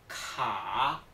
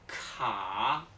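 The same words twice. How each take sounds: No difference in how they are said.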